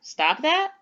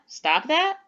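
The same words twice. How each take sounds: First: It is said with a questioning tune. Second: It is said with a questioning tune.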